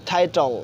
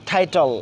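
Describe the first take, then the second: The two takes are said the same way.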